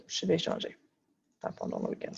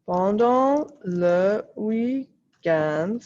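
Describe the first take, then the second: First: Pendant le week-end whispered under her breath; a quick unvoiced correction to herself; whispered self-correction. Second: Pendant le week-end drawn out slowly while writing; slow dictation. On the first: Real, not acted. Teacher whispering a correction to herself. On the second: Acted. Teacher dictating slowly to her students. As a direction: spell it out slowly for the class to copy.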